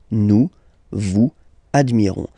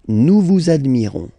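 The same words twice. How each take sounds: First: Vous and admirons are said without a linking sound. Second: A z sound links vous to admirons.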